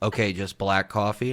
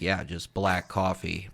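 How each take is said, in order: First: Rising on coffee, doubtful check; incredulous question. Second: Said in the usual way. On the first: Retold or imitated. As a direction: ask it back as if unsure you heard right. Retelling barista double-checking the order.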